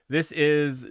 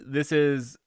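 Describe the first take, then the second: Both takes have the same delivery.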